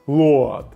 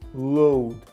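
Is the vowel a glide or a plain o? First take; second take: plain o; glide. First: The vowel is a plain o sound. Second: The vowel glides from o toward u. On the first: The speaker calls it wrong. "Якщо ви будете читати букви, то ви будете читати" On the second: The speaker calls it right. "а в транскрипції написано load"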